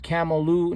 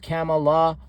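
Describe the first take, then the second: First: The word ends with an added u vowel. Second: The word ends with an added a vowel. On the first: "Not camel or camela or camelu" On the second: "Not camel or camela or camelu"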